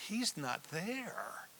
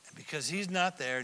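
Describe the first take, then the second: First: Slow, hushed whisper. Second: Said in the usual way. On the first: Shown as a demonstration. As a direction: drop to a grave whisper. Solemn key point, whispered.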